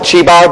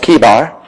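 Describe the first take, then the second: First: The name begins with a ch sound. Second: The name begins with a k sound. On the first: The speaker calls it wrong. "I might call it Chebar because that's what I've always called it" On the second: The speaker calls it right. "But the correct pronunciation is Kebar"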